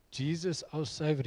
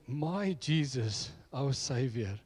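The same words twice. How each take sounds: First: Said in the usual way. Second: "My" drawn out and stressed, slow. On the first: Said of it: "So he wouldn't say". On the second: Retold or imitated. Ahmad claiming Jesus as his own, stressing "My". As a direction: lean on "My Jesus", slowly. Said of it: "He would say".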